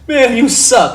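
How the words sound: It is said in a light, joking tone. It is friendly teasing. "and that's funny"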